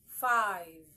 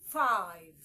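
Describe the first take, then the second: No difference in how they are said.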